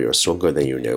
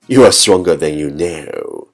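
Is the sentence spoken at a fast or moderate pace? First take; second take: fast; moderate. First: It is spoken at top speed in one breath. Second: It is spoken at a moderate pace. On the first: "一口气最快语速" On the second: "跟上我的节奏"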